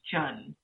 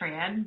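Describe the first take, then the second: First: The name starts with a ch sound. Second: The name starts with a tr sound. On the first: This is how the name is said in Vietnamese. "In Vietnamese, it's pronounced Chun" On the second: This is the everyday anglicized way of saying it. "people just say Tran"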